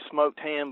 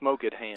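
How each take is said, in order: First: The words are pronounced in the ordinary standard way. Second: The words are pronounced in an odd, distorted way. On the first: "it was actually smoked ham" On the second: "he pronounced it smoked ham"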